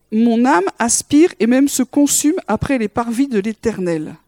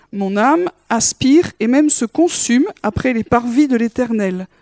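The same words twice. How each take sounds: Both takes have the same delivery.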